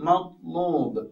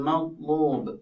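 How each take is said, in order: Both takes have the same delivery.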